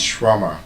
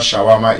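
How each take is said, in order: First: Shawarma squeezed to SHWAR-ma; corrected pronunciation. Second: Shawarma with a full vowel after sh: sha-WA-ma; wrong pronunciation. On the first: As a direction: drop the first vowel of shawarma. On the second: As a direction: say shawarma in three full syllables. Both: Shown as a demonstration. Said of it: "you know it's not shawarma".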